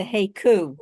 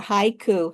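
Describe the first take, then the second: First: Haiku said as HAY-koo; haiku, first vowel as in "day"; variant pronunciation. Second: Haiku, first vowel as in "eye"; variant pronunciation. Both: Shown as a demonstration. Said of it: "however you wanna say it".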